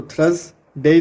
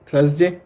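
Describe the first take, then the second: First: Teacher stretches थर्सडे for the class; slow demo of Thursday. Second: Said in the usual way. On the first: Shown as a demonstration. Teacher slowly sounding out थर्सडे for students. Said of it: "जय की आवाज़". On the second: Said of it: "तो simple".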